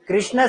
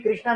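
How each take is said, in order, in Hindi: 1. शब्द का अंत किसी स्वर से नहीं होता। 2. शब्द का अंत लंबे 'aa' स्वर से होता है। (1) "कृष्ण सही है" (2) "जिंदगी में कभी कृष्णा नहीं बोलना"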